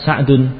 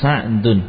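First: The name is said as Sa'dun, with ending. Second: The same.

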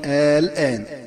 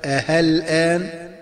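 First: The second hamza becomes a short plain a. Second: The second hamza becomes a clear h sound. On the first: "أن تبدل ألف خالصة هكذا مع القصر" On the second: "أن تبدل الهمزة المسهلة هاء خالصة هكذا"

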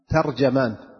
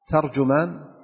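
First: The first two vowels are not a then u. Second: The first two vowels are a then u. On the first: "ويجوز أن تقول ترجمان أو ترجمان" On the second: "وأجود ذلك الأول، ترجمان بالفتح ثم الضم"

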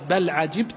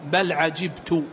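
First: The verb ends with an 'a' vowel, 'ajibta'. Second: The verb ends with a 'u' vowel, 'ajibtu'. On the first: The person addressed is the one who wonders. "وقرأ بقية القراء بالفتح" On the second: The speaker himself is the one who wonders. "قرأ حمزة والكسائي بالضم"

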